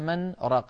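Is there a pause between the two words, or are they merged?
pause. A short pause separates the two words. The speaker calls it right.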